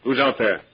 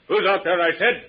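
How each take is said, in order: First: Said in the usual way. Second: Demanding call. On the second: Acted. Repeats demand, louder.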